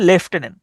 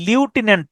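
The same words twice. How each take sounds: First: লেফটেন্যান্ট with a "lef" first syllable; correct pronunciation. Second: লিউটেন্যান্ট with a "lyu" first syllable; wrong pronunciation. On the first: Teacher corrects the learner, saying "lef-tenant". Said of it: "এটার উচ্চারণটা হচ্ছে". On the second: Teacher cites the mistaken form, saying "lyu-tenant". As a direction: say লিউটেন্যান্ট starting "lyu", not "lef". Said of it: "লিউটেন্যান্ট না". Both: Shown as a demonstration.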